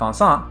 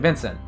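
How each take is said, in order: First: The name is said with nasal vowels. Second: The name is said with full consonants. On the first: This is how French speakers say it. "a French speaker would say something like Vincent" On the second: This is how English speakers say it. "English speaker will say Vincent"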